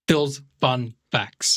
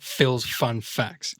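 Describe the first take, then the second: First: The F sounds are popped strongly. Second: The F sounds are soft and weak. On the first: The speaker calls it right. "Pop the F" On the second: The speaker calls it wrong.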